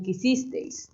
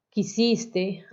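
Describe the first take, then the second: First: Put-on quisisteis with the old -eis ending sounded out; old verb form. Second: Said in the usual way. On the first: Shown as a demonstration. Teacher showing the students an old poetic verb form, quisisteis with the eis ending sounded. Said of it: "antes decían quisisteis". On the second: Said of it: "Ahora nosotros dijimos amaste".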